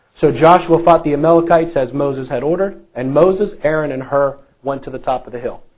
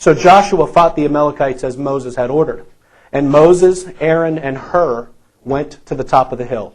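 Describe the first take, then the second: Both takes have the same delivery.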